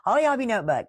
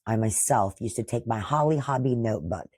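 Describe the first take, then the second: First: Nostalgic delight. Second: Said in the usual way. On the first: Real, not acted. Repeats name with nostalgic delight.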